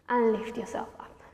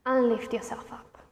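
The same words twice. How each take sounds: The two takes are said the same way.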